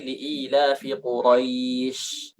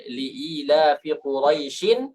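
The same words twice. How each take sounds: First: "Quraisy" closed on sh, without the "in"; pausal ending. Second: "Quraisyin" with the final "in" sounded; full tanwin ending. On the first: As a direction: stop on "Quraisy" with a drawn-out final sh. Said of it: "kita berhenti". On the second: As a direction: end "Quraisyin" on an audible n. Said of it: "Hilang tanwinnya". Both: Shown as a demonstration.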